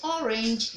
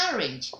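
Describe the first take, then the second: First: Orange opening on a rounded "aw"; rejected pronunciation. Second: Orange opening on an open "ah"; model pronunciation. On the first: Teacher shows pupils what to avoid, rounded orange. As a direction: say orange as "aw-rinj". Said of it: "You don't call it orange". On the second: Teacher drills pupils on orange, open-vowel model pronunciation. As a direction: say orange as "ah-rinj". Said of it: "You call it what?". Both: Shown as a demonstration.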